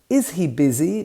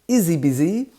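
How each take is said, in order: First: Every sound is pronounced clearly and fully. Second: Sounds are reduced and run together.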